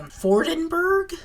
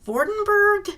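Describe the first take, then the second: First: The name begins with an F sound. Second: The name begins with a V sound.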